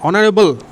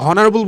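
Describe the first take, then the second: First: The word begins with a vowel, no h sound. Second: The word begins with an audible h sound. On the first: The speaker calls it right. "এইচের কিন্তু উচ্চারণ কিন্তু হয় না" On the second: The speaker calls it wrong. "অনেকে হনারেবল বলে ফেলো, এটা কিন্তু ভুল"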